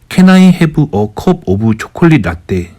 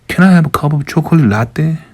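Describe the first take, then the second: First: It is spoken with a heavy Korean accent. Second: It is spoken with a lighter Korean accent. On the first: The listener could not understand it. The speaker calls it wrong. "완전 코리안 액센트 잔뜩 있는 영어로" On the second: The listener can understand it. The speaker calls it right. "지금 커피숍 가면은"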